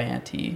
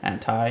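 First: "anti" said slowly as AN-tee, softly; quiet "anti" ending in an ee sound; an-tee pronunciation. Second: "Anti" said slowly as AN-tie, softly; quiet "Anti" ending in a long eye; an-tie pronunciation. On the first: Trying both readings aloud, "anti" as an-tee. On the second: Trying both readings aloud, "Anti" as an-tie. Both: Shown as a demonstration. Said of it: "Sound it out".

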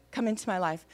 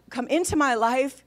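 First: Understated echo, falling at the end; repeating a prayer. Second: Firm prayer line left open with a rise; leading a prayer. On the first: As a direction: repeat it modestly after the leader. Patient repeats the prayer line. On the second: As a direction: lead it for someone to repeat. Husband leads a prayer line. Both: Retold or imitated.

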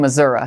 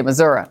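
First: Missouri said mi-ZOOR-ee, ending in a clear ee sound; Missouri with final ee, the textbook way; standard pronunciation. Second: Missouri with final uh, Midwestern style; Midwest pronunciation. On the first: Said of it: "I know it's supposed to be Missouri". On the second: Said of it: "I'm gonna use my Midwest, uh, accent and say". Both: Shown as a demonstration.

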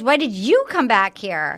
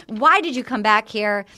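First: YOU punched, thrown back at him; stress on YOU. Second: WHY said as the main word, falling after it; stress on WHY. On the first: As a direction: echo the question and lean on YOU. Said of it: "And then she goes". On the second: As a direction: lean on WHY as a real question. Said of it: "And then he says to her". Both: Retold or imitated.

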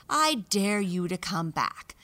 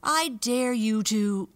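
First: Loud, bold taunting challenge; taunting dare. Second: Loud, slow, higher defiant taunt; louder taunting dare. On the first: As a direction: dare them boldly. Boastful mouse dares siblings. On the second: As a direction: throw the dare harder, slowly. Dare repeated more forcefully. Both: Acted.

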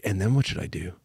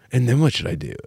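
First: Soft, worried inner voice; anxious inner loop. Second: Said in the usual way. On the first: Retold or imitated. In his head at the rehearsal, a soft worried loop. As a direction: murmur it to yourself, fretting. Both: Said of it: "in my head, I was going like".

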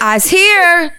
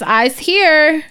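First: Put-on very high, loud little-kid yell; yelling toddler. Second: Put-on high-pitched little-kid announcement; announcing toddler. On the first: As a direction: holler it out like an excited small child. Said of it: "She yells". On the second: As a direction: announce yourself proudly like a small child. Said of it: "she announces".

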